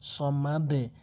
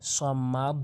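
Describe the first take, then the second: First: The final d is released with an 'e' sound. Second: The final d gets no downward 'e' bounce. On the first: The speaker calls it right. "বলতে হবে সমাদে" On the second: The speaker calls it wrong. "অনেকেই ভুল করে বলি সমাদ"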